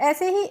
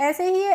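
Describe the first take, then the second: The two takes are said the same way.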